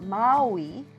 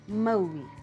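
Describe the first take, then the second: First: The vowels are said with a loose mouth. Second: The vowels are said with a tight mouth. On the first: The speaker calls it wrong. "not Maui" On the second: The speaker calls it right. "make your mouth a little bit tighter and it sounds like this"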